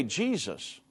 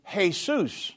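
First: Said in the usual way. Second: "Jesus" said the Spanish way, hay-SOOS, with a soft h. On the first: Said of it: "in English". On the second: Shown as a demonstration. Radio host showing callers the Spanish "Jesus": hay-SOOS. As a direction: pronounce "Jesus" as hay-SOOS, stress on the second syllable.

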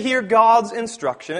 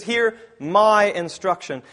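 First: Said in the usual way. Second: "my" leaned on, slowed; stress on my. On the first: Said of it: "It doesn't say". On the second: Shown as a demonstration. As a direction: hit the word "my" in "Hear my instruction". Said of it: "It says".

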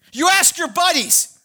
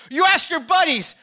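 The two takes are said the same way.

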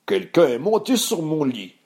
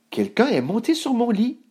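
First: Big put-on bear voice, rising in pitch; big Papa Bear voice. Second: Much higher, feminine mother-bear voice; Maman Bear. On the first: Papa Ours seeing his bed undone, big voice. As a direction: boom it as father bear. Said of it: "d'une grosse voix". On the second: Maman Ours adding after Papa, high astonished voice. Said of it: "ajouta Maman Ours". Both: A narrator's reading.

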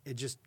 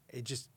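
The two takes are said the same way.

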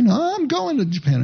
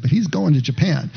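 First: High, emphatic quote of a stubborn friend; quoting Bob's reply. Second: Said in the usual way. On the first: Retold or imitated. Pastor quoting Bob brushing off friends' worries, high and emphatic. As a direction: toss it off high and sure like Bob insisting. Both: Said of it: "I can't say it in a Scottish accent".

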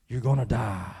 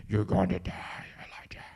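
First: Scary voice. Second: Creepy low whisper like a video game villain; scary whisper. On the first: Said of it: "there's probably a voice like that". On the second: Pastor voicing the queen's threat to Elijah, creepy whisper. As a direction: hiss the threat like a horror game voice. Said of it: "That's what it sounds like". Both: Acted.

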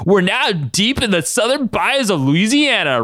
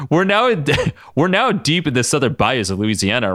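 First: High, slow, hammed-up Southern drawl; exaggerated Louisiana southern twang, drawn out; horrible southern accent. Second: Said in the usual way. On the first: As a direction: lay on a terrible southern accent. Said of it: "with a horrible southern accent". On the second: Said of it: "I just read this wrong".

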